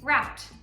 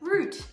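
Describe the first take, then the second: First: It is said with an American pronunciation. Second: It is said with an Australian pronunciation.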